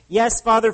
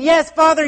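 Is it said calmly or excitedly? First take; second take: calmly; excitedly. First: It is said in a calm reading tone. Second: It is said with bursting excitement.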